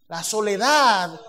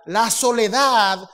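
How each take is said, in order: Both takes have the same delivery.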